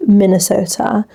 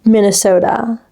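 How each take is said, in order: First: "Minnesota" in a British accent, crisp t; British-style "Minnesota". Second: American-style "Minnesota"; American accent. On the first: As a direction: say "Minnesota" like a Brit. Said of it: "like, a British accent". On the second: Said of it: "You just can't say Minnesota". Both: Shown as a demonstration.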